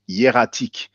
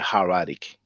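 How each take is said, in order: First: The word is pronounced the French way. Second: The word is pronounced the English way. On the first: "in French we pronounce it hieratic" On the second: "in English you say hieratic"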